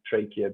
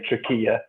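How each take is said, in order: First: It is said in an American pronunciation. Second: It is said in a non-American pronunciation. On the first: "the Americans say trachea" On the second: "I say trachea"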